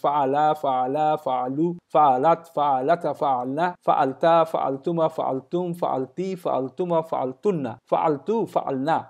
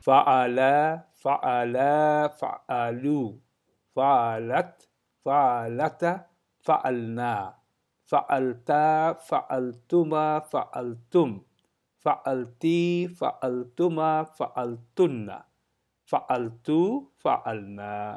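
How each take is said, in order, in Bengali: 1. রূপগুলো দ্রুত গতিতে পড়া হচ্ছে। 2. রূপগুলো ধীর গতিতে পড়া হচ্ছে। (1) "আরেকটু স্পিড বাড়ান" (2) "প্রথমে ধীরে ধীরে শুরু করবেন"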